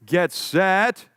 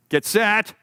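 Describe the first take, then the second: First: "get set" stretched with a rising, held tune; "set" drawn out and left hanging upward, a fake-out; teasing drawn-out get set. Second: "get set" pitched higher and louder with more urgency; building get set. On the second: Acted. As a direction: push "get set" up higher, the last call before the start. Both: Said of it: "get set, (repeated)".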